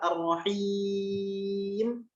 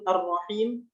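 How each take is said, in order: First: The long vowel is held for six beats. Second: The long vowel is held for two beats. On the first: "enam harokat" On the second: "dua harokat"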